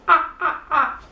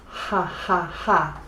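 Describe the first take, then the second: First: Each syllable starts with no h sound. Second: Each syllable starts with a breathy h sound. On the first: The speaker calls it wrong. "not like this" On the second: The speaker calls it right. "I'm going to laugh like this"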